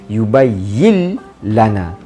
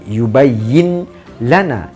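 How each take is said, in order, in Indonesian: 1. Bunyi n langsung menyatu ke dalam l. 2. Bunyi n diucapkan sebelum l. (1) "Terus masuk pada huruf lam. Nun tak perlu sebut" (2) "bukan yubayyin lana"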